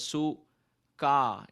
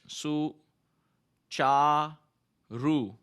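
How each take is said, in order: First: The second consonant is a hard 'k' sound. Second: The second consonant is a 'ch' sound. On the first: The speaker calls it wrong. "we may probably read it as su ka" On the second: The speaker calls it right. "C stands for C H"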